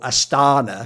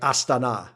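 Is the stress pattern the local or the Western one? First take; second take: Western; local. First: The stress falls where Western speakers usually put it. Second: The stress falls where local speakers put it. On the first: This is how it is said in the West. The speaker calls it wrong. "we in the West go Astana because that's like how we pronounce it" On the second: This is how it is supposed to be said. The speaker calls it right. "it's supposed to be like Astana, like you're supposed to make that where the emphasis is"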